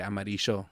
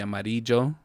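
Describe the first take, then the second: First: The double L sounds like sh. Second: The double L sounds like y. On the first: "we would say amarillo" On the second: "yellow would be amarillo"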